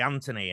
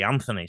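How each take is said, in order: First: The middle consonant is a plain t sound. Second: The middle consonant is a th sound. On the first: This is the English way of saying the name. "English people tend to be Anthony" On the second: This is the Australian way of saying the name. "Aussies tend to be Anthony"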